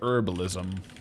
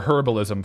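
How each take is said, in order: First: The word starts without an H sound. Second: The word starts with an audible H sound.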